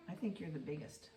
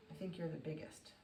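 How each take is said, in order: Both takes have the same delivery.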